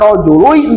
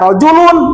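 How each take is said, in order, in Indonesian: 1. Bunyi n di akhir menyatu menjadi bunyi y. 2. Bunyi n di akhir jelas tetap dipertahankan. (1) "Kenapa dibaca rojului" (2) "enggak rojulun"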